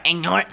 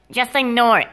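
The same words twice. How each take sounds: First: "Ignore it?" rising at the end; questioning echo. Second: "ignore it" higher, falling at the end; dismissive instruction. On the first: Questioning the advice, rising "Ignore it?". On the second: Advising about the cup, falling "ignore it". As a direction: tell them "ignore it" as a falling statement. Instruction, then echoed as question. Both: Acted.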